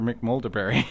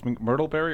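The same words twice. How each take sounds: First: McMulderberry with MULDER in the middle; Mulder version of name. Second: McMurtleberry with MURTLE in the middle; "McMurtleberry", an r-coloured MUR then tul; Murtle version of name. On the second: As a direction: say McMurtleberry, middle rhyming with turtle. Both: Shown as a demonstration. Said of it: "can never remember if it's".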